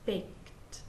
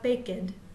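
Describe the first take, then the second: First: The word is said as one syllable. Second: The ending adds an extra syllable. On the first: The speaker calls it right. "Just baked. One syllable only" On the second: The speaker calls it wrong. "Be careful not to add the extra syllable. We don't want to have"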